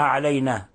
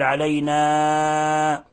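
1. الألف الأخيرة مقصورة أكثر من اللازم. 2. الألف الأخيرة ممدودة أكثر من اللازم. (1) "ألا نقصر الألف" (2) "ولا نمدها نبالغ فيها أكثر من حركتين"

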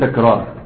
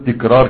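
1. المقطع الأول فيه الفتحة 'a'. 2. المقطع الأول فيه الكسرة 'i'. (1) "فتقول إيه تكرار" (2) "ولا تقول تكرار"

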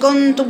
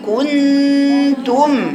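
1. المقطع الأول مستعجل ومختصر. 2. المقطع الأول يُعطى مدّه الكامل. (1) "ما تقوليش كنتم وتجري بسرعة عليها" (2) "قولي كنتم"

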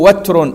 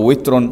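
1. الحركة الأولى هي صوت 'a' مفتوح. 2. الحركة الأولى هي صوت 'i' مغلق. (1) "يجوز فيها الفتح" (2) "والكسر"

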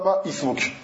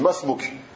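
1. Le deuxième mot commence séparément, avec sa propre voyelle. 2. Les deux mots se collent sans la voyelle initiale. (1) "tu dis pas Ma-Ismouk" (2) "tu dis Masmouk. Tu lis directement entre les deux mots"

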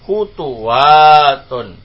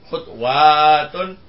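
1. Huruf t diikuti vokal u. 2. Huruf t langsung diikuti w, tanpa vokal. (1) "maka yang kedua di dhamma juga" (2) "tetap sukun huruf keduanya"

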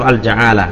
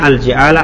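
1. Vokal setelah j adalah a. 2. Vokal setelah j adalah i. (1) "atau al-ja'alah" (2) "bisa dibaca al-ji'alah"

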